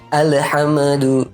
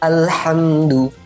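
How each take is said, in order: First: The l sound bounces with an added vowel. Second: The l sound is held still, without bouncing. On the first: The speaker calls it wrong. "diayun gitu, dipantulkan" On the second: The speaker calls it right. "ini harus hati-hati"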